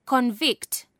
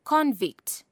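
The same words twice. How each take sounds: First: Con-VICT, weight on the last syllable; second-syllable stress. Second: CON-vict, weight on the first syllable; first-syllable stress. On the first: Teacher showing verb stress to learners, second-syllable stress. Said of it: "stress is placed on the second". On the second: Teacher showing noun stress to learners, first-syllable stress. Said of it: "stress is placed on the first syllable". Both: Shown as a demonstration.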